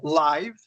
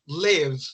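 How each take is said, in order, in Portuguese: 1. A vogal soa como 'eye'. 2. A vogal é um som curto de 'ih'. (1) "tem muita gente que está pronunciando ainda é" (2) "Com esse somzinho de E"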